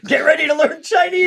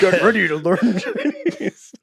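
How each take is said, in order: First: Laughing high-pitched villain line; mock menacing Vader, cracking up; Vader impression. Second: Slowly savoring the line through laughter; drawn-out amused repeat; slow laughing repeat. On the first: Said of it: "It would be amazing if Vader had been like". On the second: Retold or imitated. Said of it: "repeat of the line".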